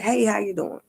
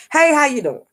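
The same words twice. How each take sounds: First: Said in the usual way. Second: Bright, high, sing-song hello from a former worker; cheery greeting. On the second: Retold or imitated. Former worker spots him in the store, high, cheery hello. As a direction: greet him like an old friend, all lit up.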